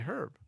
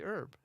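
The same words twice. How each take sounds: First: The word is said the English way. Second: The word is said the American way. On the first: "but in England they say herb" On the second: "I say herb"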